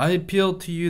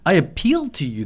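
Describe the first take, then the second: First: The pitch stays level and plain throughout. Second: The pitch moves up and down throughout. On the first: "그냥" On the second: "제가 이제 읽을 때 높낮음이 있죠"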